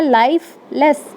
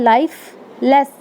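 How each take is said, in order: First: Said in the usual way. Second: lifeless said slowly, with a long drawn "life" and a short "लेस"; stress on life. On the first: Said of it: "देखो life कितना लंबा". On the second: Shown as a demonstration. Teacher showing class the stressed syllable, slow and drawn. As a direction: stretch the first half of lifeless and clip the "लेस". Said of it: "देखो life कितना लंबा, अ, जा रहा है".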